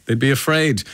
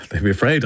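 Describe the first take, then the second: First: "afraid" said higher with a falling close, driving it home; emphatic repeat. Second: Said in the usual way. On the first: Shown as a demonstration. Host to listener Pauline, "afraid" said higher and falling. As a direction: lean on "afraid" and land it with a fall.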